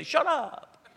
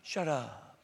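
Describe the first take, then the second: First: Blunt shut up. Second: Soft, gentle hush of a kind God; kinder shut up. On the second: God gently telling a gossip to hush, softly. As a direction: let it fall softly, like God being gentle. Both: Retold or imitated. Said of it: "Or, no, he'll be kinder".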